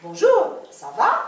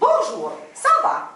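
First: The stress falls on the last syllable of words. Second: The stress falls on the first syllable of words. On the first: This is how French speakers say it. "en français, on dit, c'est sur la dernière" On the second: This is how Czech speakers would say it. "En tchèque, c'est"

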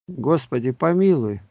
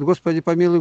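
First: The phrase is said slowly and unhurriedly. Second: The phrase is said quickly and hurriedly. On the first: The prayer is said attentively, without hurry. The speaker calls it right. "Надо считать, как считает Добунов" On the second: The prayer is rushed through mechanically. The speaker calls it wrong. "не торопиться считать. А то считает"

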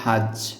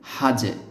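First: The final consonant stops flat with no echo. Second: The final consonant ends with a short echoing bounce. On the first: The speaker calls it wrong. "এখানে এই শব্দটির ক্ষেত্রে এভাবে বলা যাবে না" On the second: The speaker calls it right. "কলকলাও করতে হবে"

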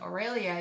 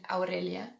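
First: The name is said with an English pronunciation. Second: The name is said with a Spanish pronunciation. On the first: "But with the English pronunciation" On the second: "I love it even more with the Spanish pronunciation"

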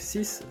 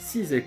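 First: The final consonant is pronounced as an s. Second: The final consonant is pronounced as a z. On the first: "Коли ми рахуємо, як ви помітили, вона читається" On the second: "«x» у зв'язуванні читається з"

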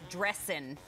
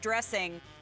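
First: The word ends without the final g sound. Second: The word ends with a full 'ing' sound. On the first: The speaker calls it right. "No G, you drop the G" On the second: The speaker calls it wrong. "I said that wrong"

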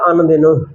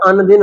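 First: The word ends with an added long 'o' vowel. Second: The word ends without an added 'o' vowel. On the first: The syllable count is extended for the verse. "ਮਾਤਰਾ ਵਧਾਉਣ ਵਾਸਤੇ ਇਹਦਾ ਉਚਾਰਨ ਹੋਵੇਗਾ ਅੰਨ ਦਿਨੋਂ" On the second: It is the ordinary form of the word. "ਆਮ ਜੇ ਅਸੀਂ ਪੜ੍ਹੀ ਤਾਂ ਅੰਨ ਦਿਨ ਹੁੰਦਾ"

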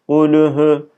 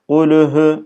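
No difference in how they are said.

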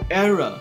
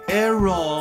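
First: The last syllable is a weak 'er' sound. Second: The last syllable is a full 'or' sound. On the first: The speaker calls it right. "它是error" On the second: The speaker calls it wrong. "不要念成error"

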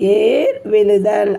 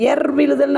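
First: The first vowel is long. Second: The first vowel is short. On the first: The speaker calls it right. "அப்படிங்கிற வார்த்தை சரி" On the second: The speaker calls it wrong. "இது தவறு"

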